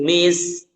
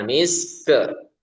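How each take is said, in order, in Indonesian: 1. Bunyi k di akhir berhenti bersih, tanpa vokal tambahan. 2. Bunyi k di akhir dilepas dengan vokal tambahan.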